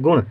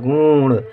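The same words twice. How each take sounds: First: The u vowel is short. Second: The u vowel is long. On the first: The speaker calls it right. "गुण गा में छोटे उ की मात्रा" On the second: The speaker calls it wrong. "यदि गलती से बड़े उ की मात्रा लिख देंगे तो गुण हो जाएगा"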